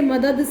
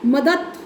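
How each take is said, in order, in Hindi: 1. शब्द का अंत घोष 'd' ध्वनि से होता है। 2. शब्द का अंत अघोष 't' ध्वनि से होता है।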